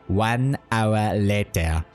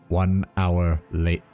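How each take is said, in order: First: It is said in a put-on character voice. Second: It is said in the speaker's normal voice.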